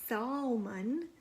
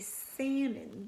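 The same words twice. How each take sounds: First: The L sound is pronounced in the word. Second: The L sound is left out of the word. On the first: The speaker calls it wrong. "we don't say salmon like it's spelled S A L M O N" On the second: The speaker calls it right. "We say salmon. The L is kind of silent"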